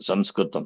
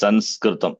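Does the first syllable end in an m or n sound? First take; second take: m sound; n sound. First: The first syllable ends in an m sound. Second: The first syllable ends in an n sound. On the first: The speaker calls it right. "It is Sanskritam" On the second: The speaker calls it wrong. "We don't say Sanskritam. ... S A N S, that's wrong"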